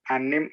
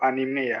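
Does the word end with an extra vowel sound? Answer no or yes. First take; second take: no; yes. First: The word ends on the m sound. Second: The word ends with an e vowel. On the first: "apakah yang benar anim atau anime" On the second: "ada belakangan e, jadi anime gitu"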